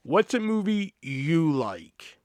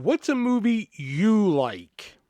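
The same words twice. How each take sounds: First: Slow, deliberate, lightly put-on; customer's odd wording again. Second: Slow, deliberate odd phrasing; customer's odd wording. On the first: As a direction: spell out the odd question slowly. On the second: Retold or imitated. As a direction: drag the question out word by word. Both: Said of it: "That's how he worded it".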